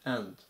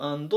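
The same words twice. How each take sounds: First: The word is said weakly, barely audible. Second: The word is said loudly and strongly. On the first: The speaker calls it right. "ほとんど聞こえないぐらいの発音ですね" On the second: The speaker calls it wrong. "よくand ってど強く読んでしまうんですけど"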